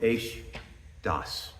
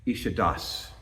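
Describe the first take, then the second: First: It begins with 'esh', said as two words. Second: It begins with 'ish', run together as one word. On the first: It means a fiery law. "we're supposed to pronounce it" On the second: It means waterfalls. "which means actually waterfalls"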